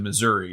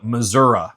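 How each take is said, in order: First: It is said the way the speaker usually says it. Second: It is said the way southern Missouri locals say it.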